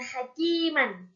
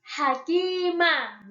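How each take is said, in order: First: The word ends with an n sound. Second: The word ends with a long a vowel. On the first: This is the reading without a stop. The speaker calls it wrong. "bukan hakiman" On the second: The reading stops at this word. The speaker calls it right. "maka menjadi hakimah"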